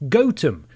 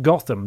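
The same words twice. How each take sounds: First: The first syllable sounds like 'goat'. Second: The first syllable sounds like 'goth'. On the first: This is how the English village is named. The speaker calls it right. "Gotham is actually pronounced Gotham, which means goat village" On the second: This is how the fictional city is named. The speaker calls it wrong. "and not Gotham, the way we pronounce the fictional city Batman calls home"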